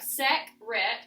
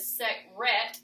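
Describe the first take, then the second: First: The stress is on the first syllable. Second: The stress is on the second syllable. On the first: "we've tried it on the first syllable" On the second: "we've changed our accent to the second syllable"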